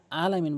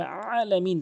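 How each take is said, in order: First: আলামিন with an open, unsqueezed first vowel; mispronounced ayn. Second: আলামিন starting with a squeezed mid-throat ayn; correct ayn. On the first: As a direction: say আলামিন without any throat press at the start. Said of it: "যারা আলামিন বলেন তাদের নামাজ ভেঙে যায়". (আলামিন গলায় চাপ ছাড়া) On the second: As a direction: press the first vowel of আলামিন from mid-throat. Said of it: "বলতে হবে আলামিন". (আলামিন হলকের মাঝখান থেকে চাপ দিয়ে) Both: Shown as a demonstration.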